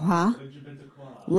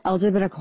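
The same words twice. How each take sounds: First: Slow, soft mock of her letter-by-letter; mocking imitation. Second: Said in the usual way. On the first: Host mocking how the mom spelled the letters, slow and soft. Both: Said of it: "how did she say it?".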